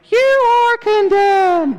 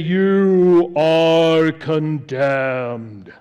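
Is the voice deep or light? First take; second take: light; deep. First: It is said in his own lighter voice. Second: It is said in a deliberately lowered, deep voice.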